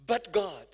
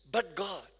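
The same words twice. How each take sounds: First: Building proclaim. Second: Said in the usual way. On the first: Acted. Preacher repeats refrain louder.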